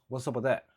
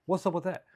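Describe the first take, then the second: First: Said in the usual way. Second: Higher-pitched stock comedian's question; mock observational-comic voice; typical stand-up comic. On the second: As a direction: lightly parody a stand-up's catchphrase delivery. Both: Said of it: "Typical stand-up comedy".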